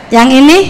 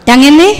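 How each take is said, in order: Both takes have the same delivery.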